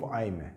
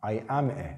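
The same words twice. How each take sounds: First: "I'm a" contracted, I and am merged; short form. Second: "I am a" in full, AM kept as its own word; full form. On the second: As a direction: say "I am a" word by word, uncontracted. («I am a» کامل و جداجدا) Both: Shown as a demonstration.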